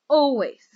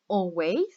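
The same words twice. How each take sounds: First: The stress is on the first syllable. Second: The stress is on the second syllable. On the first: The speaker calls it right. "Two syllables and the first one is stressed" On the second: The speaker calls it wrong. "We don't say always"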